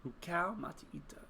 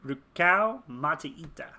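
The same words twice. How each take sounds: First: Soft, voiceless whisper; whispered to self. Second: Slow, voiced, punched RUKAU; trying out a name. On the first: Player mulling a new character name, whispered. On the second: Player testing a new character name, slow and aloud. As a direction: sound out the name aloud, slowly. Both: Real, not acted.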